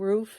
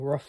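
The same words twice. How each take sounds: First: The vowel is a long oo, as in fool. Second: The vowel is short, like a dog's woof. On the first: "roof as in fool, ooh, an ooh sound" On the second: "like a dog would say"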